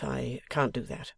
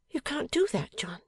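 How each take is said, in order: First: Reluctant husband. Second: High-pitched surprised echo; Bella, incredulous wife. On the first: Husband declines his wife's invitation, reluctant. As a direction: finish the refusal slowly, near your own pitch. Husband's refusal, later echoed by wife. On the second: Wife questions her husband's refusal, incredulous. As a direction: throw his refusal back, pitched far up. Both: A narrator's reading.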